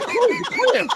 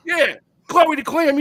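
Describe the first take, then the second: First: Very high, squealed disbelief; mock incredulous. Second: High, loud, drawn-out admission; insistent confirmation. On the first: Storyteller hears who the other woman is, high-pitched mock shock. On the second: Retold or imitated. Heartbroken friend confirms his mistress, high and drawn-out mock admission. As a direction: own up loudly, stretching the name out.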